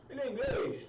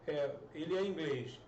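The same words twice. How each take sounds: First: "Ele é inglês" asked with a high rise on "inglês"; rising question intonation; question tune. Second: "É, ele é inglês." said as a flat statement, falling at the end; falling statement intonation; statement tune. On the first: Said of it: "você só mudou a entonação". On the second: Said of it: "só mudando a entonação na interrogativa". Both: Shown as a demonstration.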